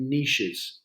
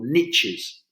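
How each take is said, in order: First: The word is said in a British pronunciation. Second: The word is said in an American pronunciation.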